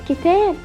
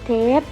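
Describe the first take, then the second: First: The whole word is said with all syllables. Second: The first syllable of the word is dropped. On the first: The speaker calls it right. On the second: The speaker calls it wrong.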